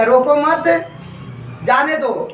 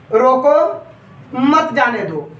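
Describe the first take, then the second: First: रोको मत together, pause, falling जाने दो; pause after मत. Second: रोको held up, pause, falling मत जाने दो; pause after रोको. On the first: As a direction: keep मत with रोको, then let जाने दो drop after a break. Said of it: "ध्वनि विकार के कारण". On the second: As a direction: stop after a rising रोको, then say मत जाने दो together. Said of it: "बोल रहा है रोको मत जाने दो". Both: Shown as a demonstration.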